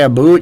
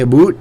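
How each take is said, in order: First: It is said in a standard accent. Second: It is said in a Canadian accent. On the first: "when you say a boot" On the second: "you say a boot"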